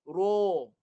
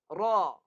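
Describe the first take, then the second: First: Rounded pushed-out lips, thick r-sound. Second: Spread wide mouth, tense slanted r-sound. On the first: It does not sound authentically Arabic. The speaker calls it wrong. "ni guna muncung ... Bunyi dia tebal" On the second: It sounds authentically Arabic. The speaker calls it right. "Lebar mulut. ... dia bunyi condong sikit"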